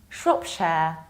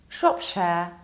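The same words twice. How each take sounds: Both takes have the same delivery.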